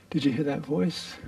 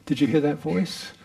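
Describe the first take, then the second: First: Amused, chuckling the question out; laughing. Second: Said in the usual way. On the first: Real, not acted. Teacher laughing as she asks the retreatants about the voice.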